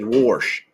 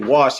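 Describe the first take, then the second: First: The word is said with an R sound added. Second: The word is said without an R sound. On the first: "he said wash" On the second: "he didn't say wash"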